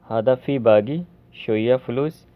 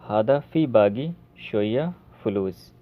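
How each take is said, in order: Both takes have the same delivery.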